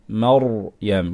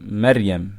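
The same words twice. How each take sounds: First: The r sound is heavy and full. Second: The r sound is light and thin. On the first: The speaker calls it right. "we can pronounce the ra strong" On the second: The speaker calls it wrong. "We're not going to say"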